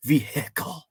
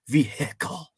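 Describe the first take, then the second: First: The h sound is forceful and angry. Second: The same.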